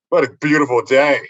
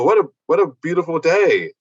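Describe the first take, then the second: First: It is said in a sarcastic, mocking tone. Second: It is said in a sincere, cheerful tone. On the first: The reader wrongly takes it as mockery. "So you read it sarcastically" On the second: The writer honestly enjoys the weather. "he didn't mean it that way"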